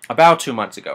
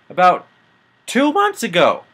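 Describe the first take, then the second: First: Said in the usual way. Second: About two months ago with months pitched high and stretched; exasperated high emphasis. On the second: Real, not acted. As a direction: pitch rises sharply on months in disbelief. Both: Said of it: "About two months ago, okay?".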